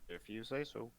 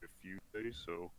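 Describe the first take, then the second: First: It is said in a normal voice. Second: It is said in a put-on lizard voice.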